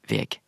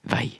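First: The word ends with a hard g sound. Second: The word ends in a diphthong, with no g. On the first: This is pronounced as it is spelled. "så må vi uttale det som veg" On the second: This is the usual spoken form of the spelling. "Vi kan skrive veg på bokmål og uttale det som vei"

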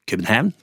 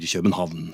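First: The name is said with its local pronunciation. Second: The name is said with a common Norwegian pronunciation. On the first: This is how people in the place itself say it. The speaker calls it wrong. "og ikke København" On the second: This is the established form used in Norwegian. The speaker calls it right. "og vi sier København"

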